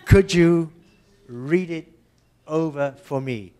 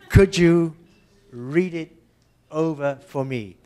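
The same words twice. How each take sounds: First: The words run together with a tapped T. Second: The same.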